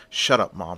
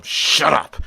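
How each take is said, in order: First: Low, restrained irritation; acted annoyance, held down before the outburst; irritated retort. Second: Louder, higher acted shout; angry outburst. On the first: Son quarrels with belittling mother. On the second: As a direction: burst out at mom, fed up. Son's outburst at his mother.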